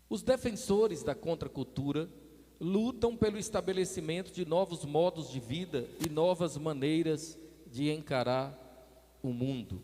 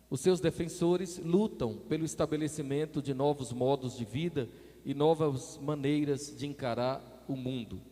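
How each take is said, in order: First: It is read more slowly. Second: It is read at a normal speed.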